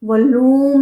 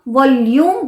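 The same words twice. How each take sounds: First: The vowel after l is a plain long oo. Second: The vowel after l starts with a y sound. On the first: The speaker calls it wrong. "वॉल्यूम नहीं बोलते हैं" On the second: The speaker calls it right. "हम वॉल्यूम बोलते हैं"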